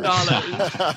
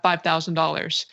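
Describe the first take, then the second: First: It is said in a Doctor Evil voice. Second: It is said in his normal voice.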